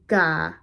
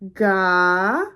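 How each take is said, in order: First: The syllable is said on a level mid tone. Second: The syllable is said with a rising pitch. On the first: "With a midtone" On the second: "a rising tone would be"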